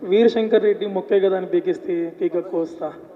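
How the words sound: It is read flatly, like an interview question.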